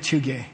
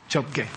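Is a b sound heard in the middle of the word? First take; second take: no; yes. First: No b sound comes before the final syllable. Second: A b sound comes before the final syllable. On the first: The speaker calls it wrong. "You don't say Chuge" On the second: The speaker calls it right. "And you pronounce the prefix letter, which is bizarre"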